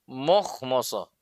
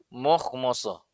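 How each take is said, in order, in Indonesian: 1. Suku kata 'ma' berat dengan vokal yang membulat. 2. Suku kata 'ma' berat dengan vokal yang membulat.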